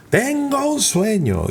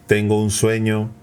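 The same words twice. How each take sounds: First: "Tengo un sueño" starting far higher, slow and falling; dynamic rising tone. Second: Same pitch throughout, no rise or fall; flat monotone. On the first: Coach showing the lively speech melody. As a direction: lift "Tengo" high and let "sueño" sweep down. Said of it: "y van subiendo y bajando el tono". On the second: Coach showing the flat monotone way. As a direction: say it on one level note. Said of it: "no, no, no". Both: Shown as a demonstration.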